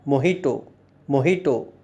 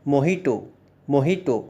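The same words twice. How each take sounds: The two takes are said the same way.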